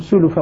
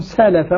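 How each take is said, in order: First: The first two syllables have u vowels. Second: The first two syllables have a vowels. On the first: "يقرأانها بالضمين، ضم السين واللام" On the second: "الباقون"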